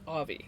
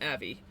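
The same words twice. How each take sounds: First: The first vowel is an open 'ah' sound. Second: The first vowel is an 'a' as in cat. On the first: The speaker calls it right. "It's Avi" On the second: The speaker calls it wrong. "not Avi"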